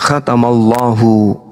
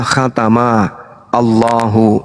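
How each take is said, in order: First: The two words are linked into one flow. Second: The two words are said separately, not linked. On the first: "kaidah membacanya ... cara membacanya" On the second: "Ini kalau dipisah, cara bacanya adalah"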